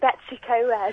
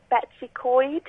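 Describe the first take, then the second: First: The last word is two syllables, like 'co-ed'. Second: The last word is one syllable, like 'coyd'. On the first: The speaker calls it wrong. "And I've been saying" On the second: The speaker calls it right. "my friend told me how to pronounce this because I was pronouncing it wrong"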